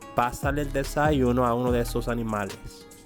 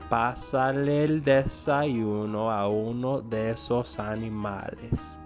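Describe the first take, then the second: First: The sentence is read at a quicker pace. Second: The sentence is read slowly and smoothly. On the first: "a little bit faster" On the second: "I'm going to read it slowly but fluidly"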